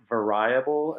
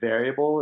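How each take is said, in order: First: The word has a European-style pronunciation. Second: The word has the speaker's usual pronunciation. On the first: "the way they pronounce certain words" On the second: "instead of"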